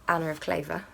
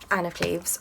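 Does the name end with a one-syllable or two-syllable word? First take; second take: two-syllable; one-syllable. First: The name ends in a two-syllable word. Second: The name ends in one-syllable Cleves.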